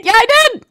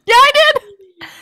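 First: Said in the usual way. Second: High, slow, laughing admission; sheepishly admitting sending the meme, laughing. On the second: Real, not acted.

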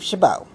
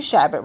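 First: "Chabot" as sha-BOH, silent t; chosen pronunciation. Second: "Chabot" as SHAB-it, ending in a t; rejected pronunciation. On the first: Renaming the candidate to his face, chosen pronunciation. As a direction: end "Chabot" on a stressed BOH. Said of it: "We're gonna call you Steve Chabot". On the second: Calling out the candidate, rejected pronunciation of his name. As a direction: say "Chabot" like "shabbit", stressed up front. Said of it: "We're not gonna call you". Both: Shown as a demonstration.

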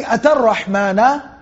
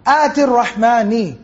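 First: "atar rahmana" with a and a endings; wrong vowel ending. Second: "ati rahmani" with i endings, slowed; correct ism form. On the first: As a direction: say "atar rahmana", the form the verse does not use. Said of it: "It doesn't say". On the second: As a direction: carefully say "ati rahmani" as in the verse. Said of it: "It doesn't say atar rahmana". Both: Shown as a demonstration.

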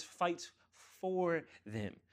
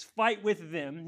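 First: "for" set apart after a pause; pause, then lean slowly on "for"; stress on for. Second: "with" hit loud and high in a slow phrase; loud, raised wrong version, leaning on "with"; stress on with. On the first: Preacher correcting to what he says, "for" set apart. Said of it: "underline the word "for". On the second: Preacher showing what he doesn't say, "with" stressed. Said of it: "He doesn't say". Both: Shown as a demonstration.

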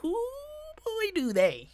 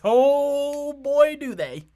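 First: Very high, hooting exclamation; comic falsetto repeat. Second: High, booming exclamation; loud mock agreement. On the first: Acted. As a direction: squeal it in exaggerated agreement. Comic repeat after a giggle. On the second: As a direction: holler it in exaggerated agreement. Mock-emphatic reaction to the article.

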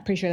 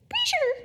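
First: Said in the usual way. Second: Very high, squeaky comic voice; SNL-style catchphrase. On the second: Acted. Preacher quoting an SNL bit for laughs, in squeaky falsetto. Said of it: "That's an S N L reference".

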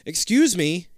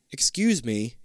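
First: Louder. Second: Said in the usual way. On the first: Acted. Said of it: "you say a little louder". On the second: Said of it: "you say".

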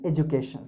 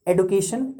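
First: एजुकेशन said "ej-oo-kay-shun" with a soft j; American pronunciation. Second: एडुकेशन said "ed-yu-kay-shun" with a d-y sound; British pronunciation. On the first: Teacher shows the American एजुकेशन, "ej-oo-kay-shun". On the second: Teacher shows the British एडुकेशन, "ed-yu-kay-shun". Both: Shown as a demonstration. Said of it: "दोनों सही हैं".

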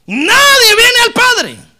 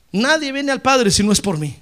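First: "Nadie viene al Padre" cried out much higher, louder and slow, voice breaking; cried-out preaching. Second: Said in the usual way. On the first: Acted.

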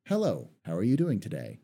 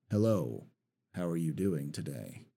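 First: Said in the usual way. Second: Same greeting dropped low and quiet; lower, darker tone. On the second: Shown as a demonstration. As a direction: say it lower to make a new character. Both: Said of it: "two different characters right off the bat because of the tone".

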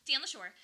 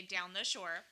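First: Proudly local Delco "down the shore"; Delco accent. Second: "down the shore" in local Delco speech; Delco accent. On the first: Co-host repeating her hometown phrase, Delco accent. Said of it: "We say". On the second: Co-host showing how Delco folks say it, Delco accent. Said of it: "we are from Delco. We say". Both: Shown as a demonstration.

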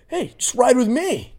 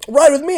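First: Much higher, slow coaxing mock invite; imitating her invitation. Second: Much higher, louder mock coaxing; imitating her invitation. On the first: Mimicking the date inviting him into her car, slow much higher mock invite. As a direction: draw it out, coaxing. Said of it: "She goes". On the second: Repeating the date's invite to his friend, much higher louder mocking. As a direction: belt her line back, mocking. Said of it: "She said that".

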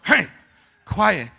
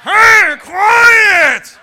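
First: Said in the usual way. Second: Screamed, high-pitched hushing; drawn-out yell for silence; louder shushing. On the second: Acted. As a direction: scream him down at full volume. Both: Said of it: "You want me to get louder?".

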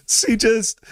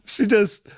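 No difference in how they are said.

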